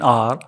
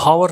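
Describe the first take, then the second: First: The word begins with a vowel sound. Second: The word begins with an h sound. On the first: The speaker calls it right. "ओ की आवाज़ निकलेंगी, एच silent है" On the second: The speaker calls it wrong. "इसको हावर नहीं पढ़ेंगे"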